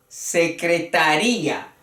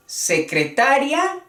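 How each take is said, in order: First: "secretaría" as secretaRÍa, falling at the end; secretaRÍa with the i strong, five syllables; stress on RÍ. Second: "secretaria" as secreTAria, final "ria" one syllable, rising higher; stress on TA. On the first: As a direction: hit the "rí" in "secretaría", separate it from "a". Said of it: "valor de fuerte a la I". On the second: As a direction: secreTAria with a questioning rise. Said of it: "la acentuación". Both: Shown as a demonstration.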